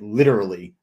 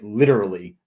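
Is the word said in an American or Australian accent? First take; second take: American; American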